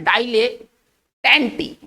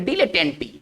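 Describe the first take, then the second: First: The first syllable is said as 'dai'. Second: The first syllable is said as 'dee'. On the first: The speaker calls it wrong. "इसका ना डाई नहीं पढ़ेंगे" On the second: The speaker calls it right. "इसको पढ़ेंगे डीले"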